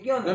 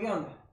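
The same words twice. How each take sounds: First: It is said in a defiant, challenging tone. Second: It is said in a plain, neutral tone.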